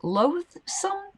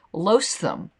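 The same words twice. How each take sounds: First: "loathsome" with a clear th, "loathe-sum", rising; careful pronunciation. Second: "loathsome" with the th dropped, "loath-sum"; stumbled pronunciation. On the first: Retrying the tricky word, "loathsome" with the th. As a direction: get the th in "loathsome" right this time. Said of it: "Can everyone say that?". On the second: Struggling with a hard word, "loathsome" without th. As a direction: trip over "loathsome", losing the th. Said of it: "my lisp that makes me not be able to say that". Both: Shown as a demonstration.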